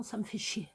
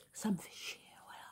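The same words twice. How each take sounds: First: Said in the usual way. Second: A muttered whisper under the breath; whispered swearing. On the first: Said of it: "Je vous le dis franchement". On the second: Real, not acted. Speaker to viewers, whispering a curse. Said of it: "je dis des gros mots".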